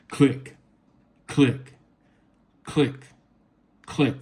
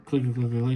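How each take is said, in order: First: The clicks are said slowly with pauses between. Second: The clicks are said quickly with no gaps. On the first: The buttons are pressed with time between presses. The speaker calls it right. "give it a minute. Give it some pause" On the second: The buttons are pressed too rapidly. The speaker calls it wrong. "you can't spam the buttons"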